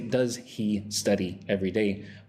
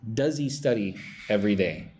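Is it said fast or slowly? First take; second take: slowly; fast. First: It is said slowly and carefully. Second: It is said fast and reduced.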